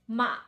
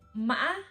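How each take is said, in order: First: The pitch drops down quickly. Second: The pitch goes up, down, then up. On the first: "we have to go down quickly" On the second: "It go up, down, and then up"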